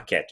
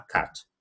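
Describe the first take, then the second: First: "cat" with a front ae vowel, like ket; American A in "cat"; American pronunciation. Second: "cat" with an open ah vowel; British open A in "cat"; British pronunciation. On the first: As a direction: say "cat" as keht. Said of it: "Não vai falar cat". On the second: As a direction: say "cat" as kaht. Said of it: "puxa pra esse A". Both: Shown as a demonstration.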